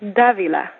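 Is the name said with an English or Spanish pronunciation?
Spanish. The name is said with a Spanish pronunciation. The speaker calls it right. "I prefer the Spanish way of pronouncing it"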